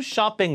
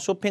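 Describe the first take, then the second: First: It is said with English pronunciation. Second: It is said with Korean-style pronunciation. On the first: The speaker calls it right. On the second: The speaker calls it wrong.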